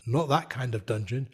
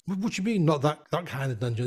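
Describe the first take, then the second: First: Low, understated hint at a hidden meaning; knowing correction. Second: Naive puzzlement. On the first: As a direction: quietly set the naive one straight. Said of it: "she looks at me and she goes". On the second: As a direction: echo it back as an innocent question. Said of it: "So Mister Naive here". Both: Retold or imitated.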